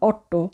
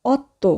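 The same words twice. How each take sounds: First: অট্টো with a hard retroflex double t; wrong hard T. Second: অত্তো with a soft dental double t; tongue on the teeth for the tt in অত্তো; correct soft T. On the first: Teacher shows what not to say, অট্টো with hard retroflex t. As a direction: curl the tongue back for the tt in অট্টো. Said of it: "আমরা বলবো না অট্টো". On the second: Teacher models Italian eight, অত্তো with soft Bengali dental t. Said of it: "আমরা উচ্চারণ করব". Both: Shown as a demonstration.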